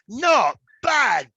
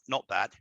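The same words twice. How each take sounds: First: It sounds impressed and pleasantly surprised. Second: It sounds lukewarm and only mildly approving. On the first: The thing was surprisingly good. "if you said something unexpected, I would go" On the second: The thing was merely acceptable. "How was the meal, Harry? Oh, not bad"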